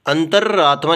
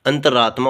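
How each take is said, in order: First: अंतरात्मा with a long, held double r; doubled r. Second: अंतरात्मा with one short r; single r. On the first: Teacher exaggerating the error, अंतरात्मा with doubled r. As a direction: say अंतरात्मा as "antar-raatmaa". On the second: Teacher giving the correct form, अंतरात्मा with single r. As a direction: say अंतरात्मा as "anta-raatmaa". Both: Shown as a demonstration. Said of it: "दो रे नहीं आते इसमें".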